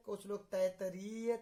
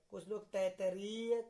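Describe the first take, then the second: No difference in how they are said.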